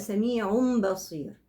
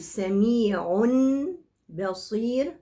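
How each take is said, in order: First: The first word ends with an m sound. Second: The first word ends with a clear n sound. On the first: The speaker calls it right. "الأسهل لي إنها تبقى سميع بصير" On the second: The speaker calls it wrong. "بدل ما أقول سميع بصير، سميع بصير فيها مشقة، نطق النون هنا في مشقة"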